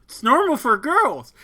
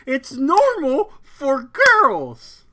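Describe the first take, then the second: First: Emphatic. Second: Drawn out and loud; slow emphatic insistence. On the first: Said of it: "repeats with emphasis". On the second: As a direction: insist on it, slowly. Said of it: "repeat slower and louder". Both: Shown as a demonstration.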